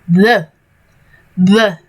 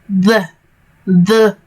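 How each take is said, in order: The two takes are said the same way.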